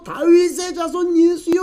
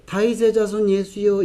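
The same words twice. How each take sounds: First: High, drawn-out desperate call; pleading cry. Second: Softly, without any urgency; meek call. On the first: Retold or imitated. Blind man calling Jesus more desperately, pleading cry. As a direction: plead in a strained, held-back cry. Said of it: "더 간절히 큰 소리로". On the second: Shown as a demonstration. Preacher showing how the beggar would not call, meek call. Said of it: "이랬겠습니까?".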